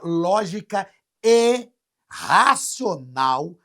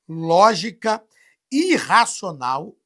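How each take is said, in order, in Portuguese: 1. O 'e' é um 'e' claro antes de 'racional'. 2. O 'e' soa como 'i', junto com 'racional'. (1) "Agora eu tenho que falar igual o paulista. O paulista não fala i, ele fala e racional" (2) "fica parecendo que eu juntei o, o, o, a palavra i, o termo e"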